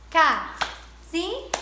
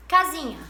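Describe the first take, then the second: First: "Casinha" slowly split into three beats; syllable by syllable. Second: Said in the usual way. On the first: Shown as a demonstration. Teacher counting for pupils, "Casinha" broken into separate syllables. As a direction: say "Casinha" as ca, zi, nha with pauses. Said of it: "pra nós separarmos as sílabas". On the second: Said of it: "separarmos as sílabas de outras brincadeiras".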